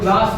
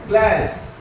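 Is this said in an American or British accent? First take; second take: British; American. First: The vowel is a broad, open 'ah' sound. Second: The vowel is a flat, front 'a' sound. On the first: "हम लोग क्लास बोलते हैं" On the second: "ये लोग क्या बोलते हैं"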